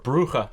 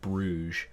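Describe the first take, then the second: First: The name is said with Dutch pronunciation. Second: The name is said with English pronunciation. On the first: This is how locals say it. "I heard that that's actually how you uh, pronounce it" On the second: This is how English speakers say it. "Anglophones pronounce it Bruges"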